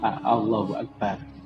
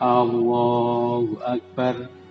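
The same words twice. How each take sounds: First: No vowel is drawn out long. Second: The first A sound is drawn out long. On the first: The speaker calls it right. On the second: The speaker calls it wrong.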